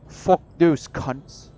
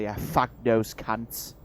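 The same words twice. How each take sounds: First: Loud, higher, slow mock British accent; hammed-up British accent, each word punched out; meme British accent. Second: Put-on mild go at a British accent; a slow, lightly put-on British accent; mock British accent. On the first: Player redoing the insult for laughs, exaggerated British accent. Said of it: "do the actual accent or a meme accent". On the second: Player imagining everyone's reaction to the Irish, mild mock British accent. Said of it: "can't decide whether I wanna do the actual accent".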